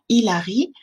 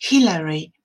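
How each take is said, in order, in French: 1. Le mot commence directement par la voyelle. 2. Le mot commence par un h soufflé. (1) "si un Français prononce le prénom Hillary en disant Hilary" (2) "se prononce bien avec le son ha"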